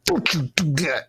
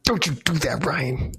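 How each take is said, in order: First: Stern scolding. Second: A firm warning, now aimed at Ryan; stern scolding. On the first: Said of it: "Can you say that again?". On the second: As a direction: scold Ryan with a threatening "Don't". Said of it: "Do it again". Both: Shown as a demonstration.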